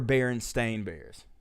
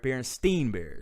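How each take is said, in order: First: The name ends with a stain sound. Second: The name ends with a stein sound. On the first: "I remember Berenstain Bears" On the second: "I'm sorry, Berenstein Bears"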